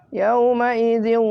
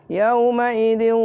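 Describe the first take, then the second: No difference in how they are said.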